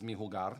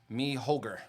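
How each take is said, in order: First: It is said with a Spanish-style pronunciation. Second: It is said with an American English pronunciation. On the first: "I guess it's mi jugar" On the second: "If I say it in the gringo way"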